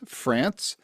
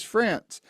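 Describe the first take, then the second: First: Said in the usual way. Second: France said higher, landing firmly with a falling close; stress on France. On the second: Shown as a demonstration. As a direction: hit France to set it against Texas. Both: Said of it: "Not Paris, Texas".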